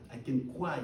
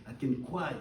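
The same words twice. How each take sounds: The two takes are said the same way.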